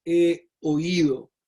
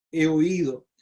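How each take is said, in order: First: Slow, weighty he oído. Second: Said in the usual way. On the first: Shown as a demonstration. Teaching the congregation, stretches out "he oído" slowly. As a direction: draw out "he oído" slowly, stressing "he". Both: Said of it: "en la expresión es".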